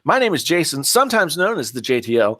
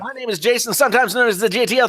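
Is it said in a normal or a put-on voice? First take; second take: normal; put-on. First: It is said in his normal speaking voice. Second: It is said in a special put-on show voice.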